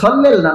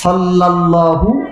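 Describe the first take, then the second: First: The word ends on 'h' without a vowel. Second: The word ends with a final 'u' vowel. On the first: The speaker calls it wrong. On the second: The speaker calls it right.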